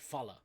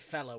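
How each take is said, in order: First: The first vowel sounds like 'uh'. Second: The first vowel sounds like 'eh'. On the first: This is how we say it. "we say fella. with a U" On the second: This is how others say it, not us. "we don't say fella"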